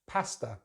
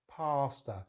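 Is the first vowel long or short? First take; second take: short; long. First: The first vowel is short, as in cat. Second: The first vowel is a long ah sound. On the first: "it has that short vowel sound that we... find in the word cat" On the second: "Americans use the long vowel sound R, so it sounds like pasta"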